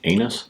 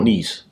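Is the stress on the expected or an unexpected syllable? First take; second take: unexpected; expected. First: The stress falls on an unexpected syllable. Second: The stress falls on the expected syllable. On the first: The speaker calls it wrong. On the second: The speaker calls it right.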